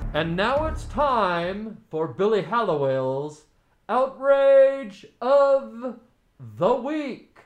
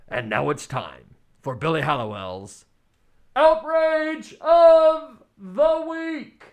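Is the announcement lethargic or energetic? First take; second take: lethargic; energetic. First: It is said in a lethargic, low-energy way. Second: It is said in a livelier, energetic way.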